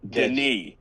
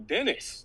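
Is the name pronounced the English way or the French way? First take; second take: French; English. First: The name is pronounced the French way. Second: The name is pronounced the English way. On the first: The speaker calls it right. "no, Denis. He's French" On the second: The speaker calls it wrong. "oh, Dennis"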